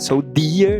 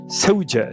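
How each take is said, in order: First: The middle consonant is a plain d sound. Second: The middle consonant is a dj sound. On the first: The speaker calls it wrong. "não é Soldier" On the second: The speaker calls it right. "é Soldier"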